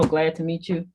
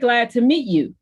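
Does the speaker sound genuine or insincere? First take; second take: insincere; genuine. First: It sounds flat and insincere. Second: It sounds warm and sincere. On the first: The speaker is not really glad to meet the listener. The speaker calls it wrong. "it's all about the tone" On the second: The speaker is really glad to meet the listener. The speaker calls it right. "I may sound genuine and you think I'm glad to meet you"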